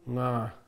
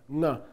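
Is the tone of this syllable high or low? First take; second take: low; high. First: The syllable is said with a low tone. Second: The syllable is said with a high tone. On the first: "Ah is the vowel quality of the lower tone" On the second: "Is the vowel quality of the higher tone"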